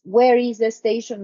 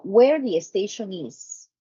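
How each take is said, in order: First: Said in the usual way. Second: "Where the station is" said as a statement, falling; statement word order. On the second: Shown as a demonstration. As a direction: let the voice fall like a statement.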